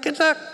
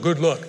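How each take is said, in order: First: It is said in a high, squeaky voice. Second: It is said in a lower, normal voice.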